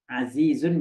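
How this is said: The middle consonants are clear z sounds. "susah bilang Zai"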